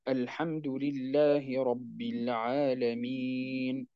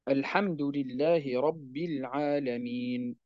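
First: The vowel before the final n is medium length. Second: The vowel before the final n is short. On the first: "وجائز فيه التوسط" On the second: "جائز فيه القصر"

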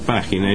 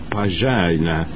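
First: The word is said with a Spanish pronunciation. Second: The word is said with an English pronunciation. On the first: This is how the word is properly said. "ellos no pronuncian página" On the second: This is how English speakers say it, close to another word. "ellos pronuncian página"

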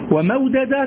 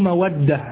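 First: The two d sounds are pronounced separately. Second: The two d sounds merge into one doubled d. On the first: The speaker calls it wrong. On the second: The speaker calls it right.

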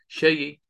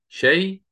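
First: The word ends with a faint, partial final vowel. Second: The word ends fully silent, with no final vowel. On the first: "نقل مع روم" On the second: "نقل مع إسكان"

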